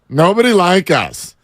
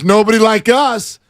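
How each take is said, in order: First: It is said in a deflated, shrugging tone. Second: It is said in a proud, confident tone. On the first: No one likes us. "Or you could be like, eh" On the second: We are unique. "You could say it two different ways"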